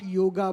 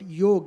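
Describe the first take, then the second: First: The word ends with a final vowel sound. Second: The word ends with a consonant sound. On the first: The speaker calls it wrong. "not yoga" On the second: The speaker calls it right. "but yog"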